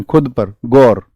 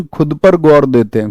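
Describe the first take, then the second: First: "खुद" hit hard, the phrase slower and falling; slow down and lean on "खुद"; stress on खुद. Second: Said in the usual way. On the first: Shown as a demonstration. ("खुद" पर ज़ोर देकर, धीमे स्वर में) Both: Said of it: "mnemonic repeated twice".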